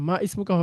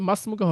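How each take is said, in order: First: The words are separate with the 'i' pronounced. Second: The words run together with the 'i' dropped. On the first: The speaker calls it wrong. "মা ইসমুকা হবে না।" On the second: The speaker calls it right. "মাসমুকা হবে"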